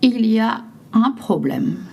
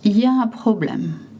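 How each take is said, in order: First: The opening 'il' is fully pronounced. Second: The opening 'il' is dropped, sounding 'ya'.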